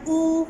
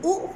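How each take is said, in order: First: ऊ said as a held oo; long oo. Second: ऊ said as a brief oo; short oo. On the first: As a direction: draw ऊ out, as in "zoo". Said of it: "वो long sound के लिए". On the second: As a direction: cut ऊ short, as in "look". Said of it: "होता है वो short". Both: Shown as a demonstration.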